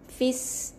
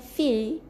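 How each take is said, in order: First: The short vowel runs straight into an s sound. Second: The vowel is held long with no following s. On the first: The speaker calls it right. "Jadi fis masuk dalam huruf sin yang bersabdu" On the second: The speaker calls it wrong. "Bukan baca dengan fi dua harakat eh"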